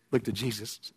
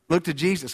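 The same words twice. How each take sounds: First: Quiet low echo of the call; hushed plea. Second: Said in the usual way. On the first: Acted. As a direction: drop to a soft, low hush.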